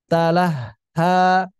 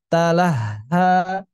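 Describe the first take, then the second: No difference in how they are said.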